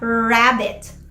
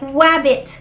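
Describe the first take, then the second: First: The word begins with an R sound. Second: The word begins with a W sound. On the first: "imbis na" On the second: "when they change a sound to a glide"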